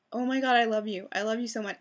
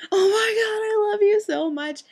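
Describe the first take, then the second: First: Said in the usual way. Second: High, loud, drawn-out gushing cry; reenacted fangirl shout, far louder and higher; overjoyed squeal. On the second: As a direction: shriek it out slowly in grateful ecstasy. Reenacts the overjoyed bear hug.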